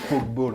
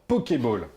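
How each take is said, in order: First: The first part is said like English 'poke'. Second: The first part is said as two syllables, po-ké. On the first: The speaker calls it wrong. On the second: The speaker calls it right.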